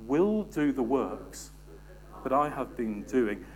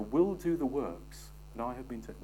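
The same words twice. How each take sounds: First: "Will do the works" slow, each word leaned on, "Will" hit; slow emphatic. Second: Said in the usual way. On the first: Shown as a demonstration. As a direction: spell it out word by word, driving it home. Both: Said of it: "Shall we say that together?".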